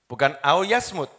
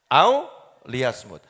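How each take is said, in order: First: Au yasmut said without the li, as the wrong reading; wrong version. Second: Au liyasmut said slowly with a clear li before yasmut; careful Au liyasmut, every syllable distinct; correct recitation. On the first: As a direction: say au yasmut as the mistaken form to be corrected. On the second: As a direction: slowly spell out Au liyasmut, sounding the li. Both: Shown as a demonstration.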